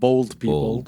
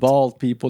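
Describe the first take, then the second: First: The vowel sounds like the one in 'bowl'. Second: The vowel sounds like the one in 'ball'. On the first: The speaker calls it wrong. "not bold people" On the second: The speaker calls it right.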